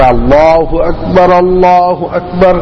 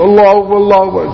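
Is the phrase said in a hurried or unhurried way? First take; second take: unhurried; hurried. First: It is said unhurriedly, followed by a pause. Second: It is said hurriedly, running straight on without pause. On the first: Listeners have time to respond. The speaker calls it right. "اب ٹھہرے" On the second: Listeners have no time to respond. The speaker calls it wrong. "ایسے نہیں ... کہے چلے جا رہے ہیں"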